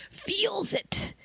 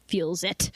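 First: "Feels" breathed out in a whisper; tired editor whispering "Feels it". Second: Said in the usual way. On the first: Shown as a demonstration. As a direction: whisper it like a weary secret.

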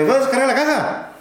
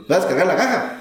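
First: High, sing-song Oaxacan worker; Oaxacan accent. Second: Put-on toned-down Oaxacan accent, with a laugh; same question, softer and laughing. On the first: Retold or imitated. Worker near Oaxaca asking the trucker about unloading, high Oaxacan accent. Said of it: "Ay, los oaxaqueños". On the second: Retelling the worker's question, toned-down Oaxacan accent with a laugh. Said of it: "a lo mejor no se muy fuerte".

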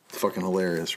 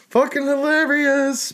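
First: Said in the usual way. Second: Mock amazement. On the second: Real, not acted. Repeated with mock drawn-out emphasis.

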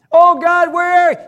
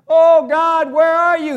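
First: Louder still, shouted plea; shouting to God. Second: Loud, higher cry for help; crying out to God. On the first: Believer in battle shouting out to God, louder and desperate. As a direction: yell it up to heaven, desperate. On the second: Believer in battle crying out loud to God. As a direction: call out desperately to God. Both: Retold or imitated. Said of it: "when you're crying".

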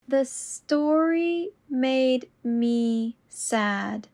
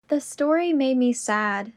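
First: Very slow and deliberate. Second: Said in the usual way. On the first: Shown as a demonstration. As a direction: stretch each word out. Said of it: "repetition drill, slowed take". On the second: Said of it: "repetition drill, normal take".

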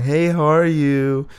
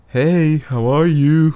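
First: Bright, higher friendly greeting; cheery phone hello from the other side; super friendly caller. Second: Slow, higher, strained attempt at enthusiasm; awkward fake-bright hello, laughing at the end; forced cheerful greeting. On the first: Retold or imitated. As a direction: sound warmly eager on the phone. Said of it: "Super friendly, super nice". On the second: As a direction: push emotion into it and overdo it. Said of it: "when I try to bring emotion, it just sounds like".

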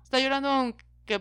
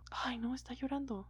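First: Said in the usual way. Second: Whispered schoolyard taunt; mocking whisper. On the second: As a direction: hiss it like a kid ratting out a crier. Kids taunting a crying boy. (burla susurrada de niño)

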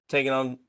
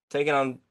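Both takes have the same delivery.

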